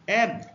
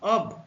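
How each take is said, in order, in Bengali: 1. স্বরধ্বনিটি 'cat' শব্দের 'a'। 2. স্বরধ্বনিটি একটি গোলাকার 'o' ধ্বনি। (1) "যখন এর উচ্চারণ এ হবে" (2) "যখন এর উচ্চারণ অ হবে"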